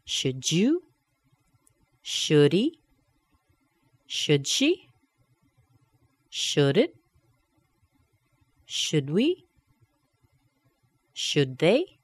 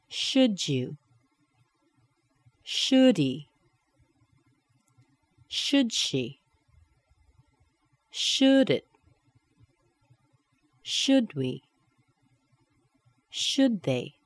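First: Each tag from "Should you" to "Should they" rising on the pronoun; rising intonation. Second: Each tag from "Should you" to "Should they" falling on the pronoun; falling intonation. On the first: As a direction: lift the last word of each "Should" question. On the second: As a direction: hit "Should" and drop the last word. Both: Shown as a demonstration. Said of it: "and falling back down".

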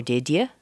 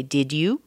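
First: "Did ya" with a weak yuh, rising; reduced DID YA. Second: "Did you" with a clear oo, rising; full DID YOU. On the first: Teacher offers the other option, a reduced "Did ya". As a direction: shorten "you" to "ya" in "Did ya". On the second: Teacher offers one option, a full "Did you". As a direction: say "Did you" unreduced, lifting at the end. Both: Shown as a demonstration. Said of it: "you could say".

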